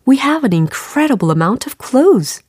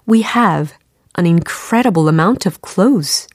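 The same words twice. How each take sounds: First: The sentence flows in one go without pauses. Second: The sentence is split into short chunks with pauses. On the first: "이번엔 한 번에 가볼까요?" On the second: "이렇게 끊어서 접근을 하시는 것도 좋은 연습이 됩니다"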